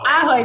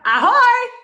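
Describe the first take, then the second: First: The stress is on the first syllable. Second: The stress is on the second syllable. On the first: The speaker calls it right. "The emphasis is on the first syllable" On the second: The speaker calls it wrong. "It's not like a pirate"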